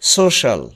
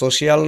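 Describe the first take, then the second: First: The word has two syllables, ending 'shal'. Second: The word has three syllables, with a separate 'i'. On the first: The speaker calls it right. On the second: The speaker calls it wrong.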